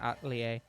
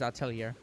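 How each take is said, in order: First: The name is pronounced in a French style. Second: The name is pronounced in a non-French style. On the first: The speaker calls it wrong. "assuming it's French and just pronouncing it Atelier" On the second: The speaker calls it right. "I believe it is Atelier"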